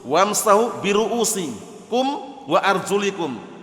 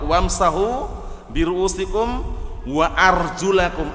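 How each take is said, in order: First: The word ends in arjulikum, with an i vowel. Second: The word ends in arjulakum, with an a vowel. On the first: The feet are only to be wiped. The speaker calls it wrong. "kalau dibaca wa arjuli berarti ma'tuf ke ruusi" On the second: The feet are to be washed. The speaker calls it right. "qiraah yang benar wa arjulakum"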